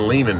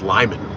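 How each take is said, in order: First: The first vowel sounds like 'lay'. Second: The first vowel sounds like 'lie'. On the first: The speaker calls it wrong. "I keep saying Lehman" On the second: The speaker calls it right. "it's Lyman"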